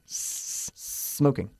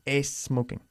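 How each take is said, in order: First: It starts directly with a strong, long S sound. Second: It starts with an extra E vowel before S. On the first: The speaker calls it right. "Es siempre bueno exagerar un poquito este sonido de la S" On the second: The speaker calls it wrong. "Así no corres el riesgo de decir es smoking"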